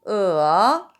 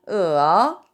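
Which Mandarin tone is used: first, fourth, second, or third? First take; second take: third; third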